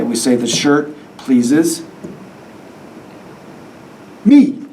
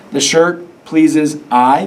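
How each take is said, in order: First: Hold, then hit "me" triumphantly; stress on me. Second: Slow, rising, doubtful "The shirt pleases I"; deliberately wrong version. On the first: Teacher to students, revealing the right answer with a punch. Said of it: "What do we say?". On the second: Teacher to class, testing the wrong pronoun slowly. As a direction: stretch "pleases I" as a questionable try. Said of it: "we don't say the shirt pleases I". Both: Shown as a demonstration.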